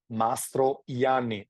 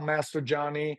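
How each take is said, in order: First: The name is said with a 'y' sound. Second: The name is said with a 'j' sound. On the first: The speaker calls it right. "The J you read as an I" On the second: The speaker calls it wrong. "The name of the winery is not Master Gianni"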